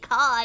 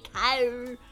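First: Car is said in the speaker's own plain accent. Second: Car is said with an exaggerated, pirate-like r. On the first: This is how the speaker normally says it. "I say car" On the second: This imitates how a friend says it. "you say car"

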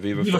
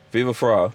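First: The second word does not sound like 'fry'. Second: The second word sounds like 'fry'. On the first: The speaker calls it wrong. "Am I saying it right?" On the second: The speaker calls it right. "Fry, like French fry"

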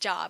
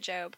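First: The vowel is short, like the word 'job'. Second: The vowel is long, like in 'robe'. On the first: The person did not know the biblical name. The speaker calls it wrong. "She called it Job" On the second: This is the usual name of the biblical book. The speaker calls it right. "instead of Job"

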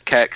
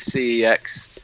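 First: The name starts with a k sound: keks. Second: The name is spelled out letter by letter.

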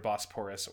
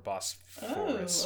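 First: The middle consonant is a p sound. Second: The middle consonant is an f sound.

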